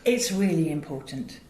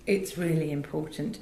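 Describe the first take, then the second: No difference in how they are said.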